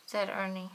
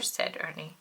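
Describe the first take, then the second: First: Said in the usual way. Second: Said Ernie in a breathy whisper; storyteller murmuring the name; whispered tag. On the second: A narrator's reading. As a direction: hush it, as though telling a secret. Narrator reads the speech tag.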